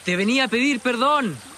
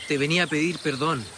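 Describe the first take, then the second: First: It is said louder than normal. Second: It is said at a normal volume.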